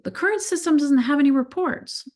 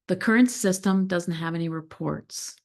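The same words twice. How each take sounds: First: The voice rises at the end like a question. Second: The voice falls at the end like a statement. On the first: It invites the other person to say more. "but as a question" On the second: It states a fact. "If your stakeholder says that"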